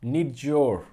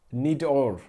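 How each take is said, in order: First: "Need your" with a clear y before "your"; careful corrected "Need your"; corrected pronunciation. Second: "Need or" with the y sound of "your" dropped; "Need or" as the uncorrected first try; mispronounced first take. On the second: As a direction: say "Need or" run together, "your" as plain "or". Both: Shown as a demonstration. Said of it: "Thank you for your correction".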